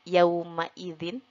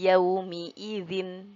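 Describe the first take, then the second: First: The vowel after the m is a. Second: The vowel after the m is i. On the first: "biasanya dibacanya harokat fathah" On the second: "kita baca dengan harokat kasroh"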